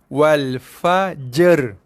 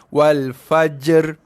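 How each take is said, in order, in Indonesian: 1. Bunyi j dan r digabungkan menjadi satu bunyi. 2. Bunyi j dan r digabungkan menjadi satu bunyi.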